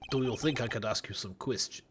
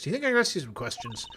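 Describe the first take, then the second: First: Slipping into the wrong character's voice by mistake; lower, wrong-character read that gets cut off. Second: Quicker redo in the proper character voice; corrected character read, brisk; right character voice. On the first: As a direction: start the line in the other character's voice. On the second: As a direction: fix it and say it in the right voice. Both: Acted. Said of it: "wrong voice".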